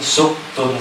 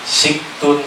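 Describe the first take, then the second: First: The first vowel is a u sound. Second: The first vowel is an i sound. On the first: "boleh dibaca suktun" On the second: "Siktun boleh dibaca suktun, boleh dibaca saktun"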